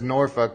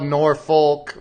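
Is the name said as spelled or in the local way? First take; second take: local; as spelled. First: The name is said in the local way. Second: The name is said the way it is spelled. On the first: "everybody says Norfolk if if you're from down there" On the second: "I know it's spelled Norfolk"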